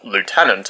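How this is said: It is said with an American pronunciation.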